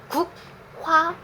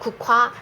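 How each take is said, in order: First: The g and h sounds are said separately. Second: The g and h merge into an aspirated k. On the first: The speaker calls it wrong. "국화 주세요 라고 안 해" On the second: The speaker calls it right. "발음하면 국화 이렇게 말해요"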